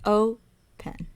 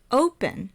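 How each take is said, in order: First: "Open" split into O, pause, pen; syllable by syllable. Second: Said in the usual way. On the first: Shown as a demonstration. Teacher showing the syllable count, "Open" in two spaced parts. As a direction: say "Open" as two separate beats. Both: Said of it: "is also two syllables".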